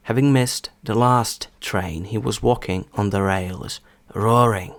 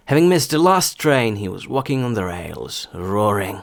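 First: Slow, careful example reading; повільно. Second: Example sentence in a connected flow; стандартна швидкість. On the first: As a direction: read it slowly, phrase by phrase. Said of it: "Приклади буду зачитувати спочатку повільно". (повільне, розбірливе читання) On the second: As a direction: read it through at a steadier, normal pace. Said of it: "а потім вже зі стандартною швидкістю". (зв'язно, у звичайнішому темпі) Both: Shown as a demonstration.

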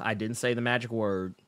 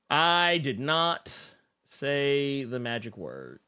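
First: Said in the usual way. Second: "did not" split and stressed, slow; mock-stern slow "I did not say the magic word"; slow emphatic. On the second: Shown as a demonstration. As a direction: spell it out slowly, stressing "not".

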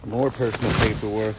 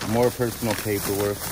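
No difference in how they are said.

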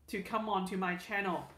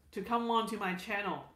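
Both takes have the same delivery.

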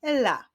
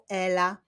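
First: "Ela" split as e, pause, la; syllable by syllable. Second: Said in the usual way. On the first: Shown as a demonstration. Teacher clapping out girls' names, "Ela" said syllable by syllable. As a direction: sound out "Ela" in two beats. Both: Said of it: "wyklaszczmy sylaby w imieniu Ela".

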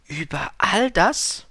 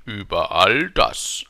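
First: ALL DAS slow, high, as a question; staunende Frage. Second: ALL DAS slow, loud, falling; königliche Bestätigung. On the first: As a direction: ask Über all das drawn out and pitched high. Prince asks in amazement. („Über all das“ gedehnt, hoch, fragend) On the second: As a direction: confirm Über all das grandly, drawn out and falling. King confirms grandly. („Über all das“ gedehnt, laut, fallend) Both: A narrator's reading.

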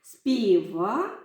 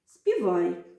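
First: «Співай» said as співа with the final й dropped and rising; unfinished word for them to complete; й left off. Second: Said in the usual way. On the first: Shown as a demonstration. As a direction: leave the ending open for the class. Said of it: "я зараз вам покажу". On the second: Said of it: "долучаєтеся до гри".

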